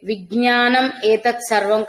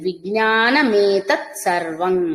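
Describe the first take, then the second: First: The first two words are said separately. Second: The first two words run together with an m.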